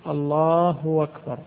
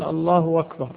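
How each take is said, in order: First: الله أكبر said slowly as اللهُ وَكبر; deliberate colloquial وكبر pronunciation; hamza turned to waw. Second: الله أكبر said as اللهُ وَكبر, hamza softened to w; hamza turned to waw. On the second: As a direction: link الله into وكبر. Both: Shown as a demonstration. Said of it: "يجعل الهمزة واوا".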